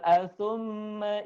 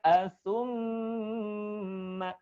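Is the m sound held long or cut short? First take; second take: cut short; held long. First: The m sound is short and rushed. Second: The m sound is held nasally for two beats. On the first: The speaker calls it wrong. "jangan tergesa-gesa, bukan atsumma idza" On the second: The speaker calls it right. "dengungkan dulu pada em-nya"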